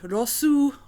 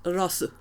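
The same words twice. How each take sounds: First: The final U vowel is clearly audible. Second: The final U vowel is nearly silent. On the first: The speaker calls it wrong. "with like a very audible U at the end" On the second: The speaker calls it right. "with like maybe a very um, small silent U at the end"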